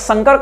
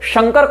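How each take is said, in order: First: The word begins with a dental 's' sound. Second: The word begins with a palatal 'sh' sound. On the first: It means a hybrid mixture. "तालविष नहीं, दंत स है" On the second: It names the god Shiva, the benefactor. "अर्थ होगा शिव कल्याणकर्ता"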